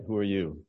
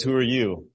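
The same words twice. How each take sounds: First: Said in the usual way. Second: A hint of a stern, sizing-up dad; lightly voiced father. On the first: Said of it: "So he asks him a question". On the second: Father questioning his daughter's date, a lightly stern voice. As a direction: ask it like a protective father at the door. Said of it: "and her father says".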